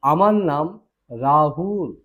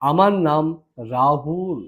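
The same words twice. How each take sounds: The two takes are said the same way.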